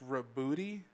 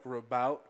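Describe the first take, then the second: First: The name ends with an extra 'ee' syllable. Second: The name ends without an extra syllable. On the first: This is said to be the official pronunciation. "Apparently, it's pronounced Rabooty" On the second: This is how some people commonly say it. "I know some people say like Rabout"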